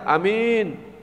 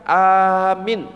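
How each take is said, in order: First: Only the second vowel is long. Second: Only the first vowel is long. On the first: It means honest. "Kalau minnya yang panjang" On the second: It means asking for protection. "Ada yang A-nya dipanjangkan"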